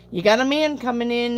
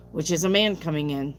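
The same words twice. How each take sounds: First: Higher, louder, stress on man; man pushed up and out, promise in the voice; emphatic repeat. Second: Said in the usual way. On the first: Real, not acted. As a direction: land the word man like good news.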